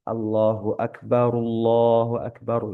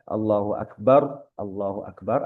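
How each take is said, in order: First: The first Akbar ends in ru, linked onward. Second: The first Akbar ends in a bare r sound. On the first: "Jadi rohnya di domah. Domahnya jelas" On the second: "taskin atau mensukukan ro di takbir awal"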